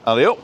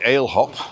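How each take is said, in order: First: It is run together as three syllables. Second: It is said as two separate words. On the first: This is the speaker's own way of saying it. "That's what I say" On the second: Other people say it this way. "I've heard people say ale hop"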